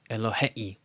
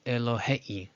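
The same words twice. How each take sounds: Both takes have the same delivery.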